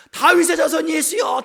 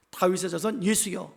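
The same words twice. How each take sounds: First: High, loud, drawn-out shout; shouting louder. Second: Said in the usual way. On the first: Acted. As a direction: cry out over the scolding crowd. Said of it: "더 크게 소리를 지르는 거죠". (더 크게, 높고 길게 외치며) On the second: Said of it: "더욱 크게 소리 질렀다".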